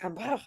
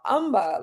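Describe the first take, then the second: First: It is said in a French accent. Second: It is said in a British accent. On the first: "when I went to Paris" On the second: "when I was in the U K"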